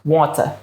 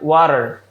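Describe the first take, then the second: First: British accent, with clearly rounded lips. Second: American accent, lips relaxed, sound from the throat. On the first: "di dalam British English kita perlu pakai lips ... lipsnya ini sampai round" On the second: "In American English kan water ... nggak merubah posisi lips ... relax banget"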